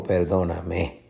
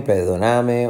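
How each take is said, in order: First: Perdóname wrongly stressed on final ME; stress on last syllable. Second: Perdóname wrongly stressed on NA; stress on third syllable. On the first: Teacher offering a wrong option, last-syllable stress on perdóname. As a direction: shift stress to the end: per-do-na-MÉ. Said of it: "o perdóname". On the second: Teacher testing stress options, third-syllable stress on perdóname. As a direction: slowly lean on per-do-NA-me. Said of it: "Va a ser perdóname". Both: Shown as a demonstration.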